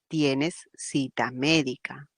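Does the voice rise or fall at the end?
fall. The voice falls at the end, like a statement.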